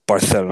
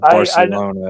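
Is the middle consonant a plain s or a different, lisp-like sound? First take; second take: lisp-like; plain s. First: The middle consonant is a lisp-like sound. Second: The middle consonant is a plain s sound. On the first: "I want to say it was Spain where" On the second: "instead of like pronouncing like the S's as like a S"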